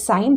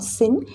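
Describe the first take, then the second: First: The word rhymes with 'line', a long vowel. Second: The word rhymes with 'tin', a short vowel. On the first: The speaker calls it right. "this is also pronounced as sine" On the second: The speaker calls it wrong. "this is not sin"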